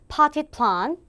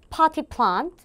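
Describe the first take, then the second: No difference in how they are said.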